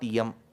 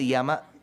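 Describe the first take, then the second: First: The word ends on the consonant m. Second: The word ends with a final a vowel. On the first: The speaker calls it wrong. "the pronunciation is not Yam" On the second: The speaker calls it right. "it is Yama"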